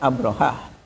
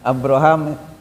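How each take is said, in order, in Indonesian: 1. Nama itu berakhir dengan bunyi h. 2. Nama itu berakhir dengan bunyi m. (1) "harusnya kan Abrohah" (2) "ya pakai mim"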